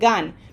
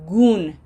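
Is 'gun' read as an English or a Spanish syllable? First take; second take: English; Spanish. First: It is read like an English word. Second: It is read like a Spanish syllable. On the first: The speaker calls it wrong. "your brain has been looking at these three letters all your life and saying" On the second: The speaker calls it right. "Now we have to train it to say"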